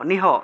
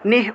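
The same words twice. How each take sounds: First: The sounds are said as separate syllables. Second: The sounds are joined in one syllable. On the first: "হসন্ত না থাকলে আলাদা আলাদা উচ্চারণ" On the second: "হসন্ত থাকলে একসাথে উচ্চারণ"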